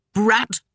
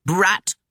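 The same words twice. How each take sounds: First: Brat! spat higher and harder; spitting. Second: Sharp high cry of Brat!. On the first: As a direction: spit Brat! with venom. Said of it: "she spat again". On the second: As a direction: yell Brat! at the child. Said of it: "she cried". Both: A narrator's reading.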